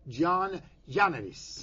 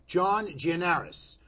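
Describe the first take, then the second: First: The surname is said with non-English pronunciation. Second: The surname is said with English pronunciation. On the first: "or is it" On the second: "I'm going to pronounce it the English way"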